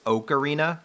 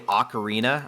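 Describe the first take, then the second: First: The first O is said as a hard O. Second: The first O is said as a soft O. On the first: The speaker calls it right. "It's supposed to be like a hard O" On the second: The speaker calls it wrong. "I know I say Ocarina"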